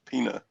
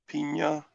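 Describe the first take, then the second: First: The middle consonant is a plain n. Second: The middle consonant is an ny sound. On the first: "or just Pina" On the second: "with the Y in it"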